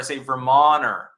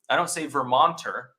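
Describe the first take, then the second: First: The T sound in the middle is dropped. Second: The T sound in the middle is clearly pronounced. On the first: The speaker calls it right. "Vermonters can't pronounce the T" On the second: The speaker calls it wrong. "that sounds crazy"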